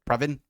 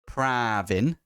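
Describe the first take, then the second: First: The A vowel is short. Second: The A vowel is drawn out long. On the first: The speaker calls it right. "I know it's Pravin" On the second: The speaker calls it wrong. "I say it with uh, elongated A"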